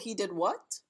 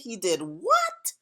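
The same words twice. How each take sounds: First: It sounds like a simple, neutral question. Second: It sounds shocked and disbelieving.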